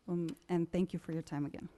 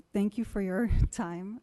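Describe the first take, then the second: First: Said in the usual way. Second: Laughing nervously through the thanks. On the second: Real, not acted. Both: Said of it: "I'm sorry I got nervous".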